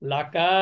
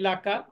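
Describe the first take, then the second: First: A vowel is drawn out and noticeably lengthened. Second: The vowels are kept short, with no lengthening. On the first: "তাহলে কিন্তু মাদ হতো" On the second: "মাদ হয়নি"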